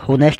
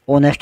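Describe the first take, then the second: First: The word begins with an h sound. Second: The word begins with a vowel sound. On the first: This is how the word is spelled. "लिखा होनेस्ट जाता है" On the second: This is how the word is actually spoken. "बोला ओनेस्ट जाता है"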